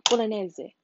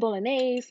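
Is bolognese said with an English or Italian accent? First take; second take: Italian; English. First: It is said with an Italian accent. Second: It is said with a plain English accent. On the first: "I'm trying to get the accent down because they say bolognese" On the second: "Some people say bolognese"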